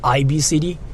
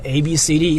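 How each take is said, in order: First: The letter A is said like 'eye'. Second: The letter A is said like 'ay'. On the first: "It's like a, an Australian thing" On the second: "it's not A B C D"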